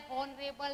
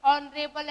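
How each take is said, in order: First: Soft, slow हॉनरेबल with an H; wrong pronunciation. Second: ऑनरेबल opening on the O vowel; silent H. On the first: Teacher ruling out the misreading, हॉनरेबल with spoken H. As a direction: sound the H at the start of हॉनरेबल. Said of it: "नहीं है". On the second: Teacher showing how it sounds, ऑनरेबल with silent H. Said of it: "हमारी sound कैसी है". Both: Shown as a demonstration.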